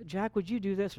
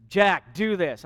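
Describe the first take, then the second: First: Softly asking, much quieter; a polite, gentle ask to a spouse; gentle request. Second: Blunt order to a spouse; bossy, demanding tone; curt command. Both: Shown as a demonstration. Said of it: "when you use a tone to one another".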